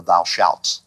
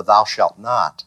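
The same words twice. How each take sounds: First: Said in the usual way. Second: "thou shalt not" slow, each word weighed; stress on thou shalt not. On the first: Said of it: "rather than on the". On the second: Shown as a demonstration. Teacher shows the serpent's emphasis, slow stressed "thou shalt not". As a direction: lean slowly on "thou shalt not", hit "thou". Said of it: "he puts the accent on the".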